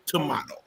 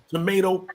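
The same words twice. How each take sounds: First: "tomato" said as tuh-MAH-toh. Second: "tomato" said as tuh-MAY-toh. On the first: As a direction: say "tomato" with a broad ah in the middle. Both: Shown as a demonstration. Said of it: "It's the same thing".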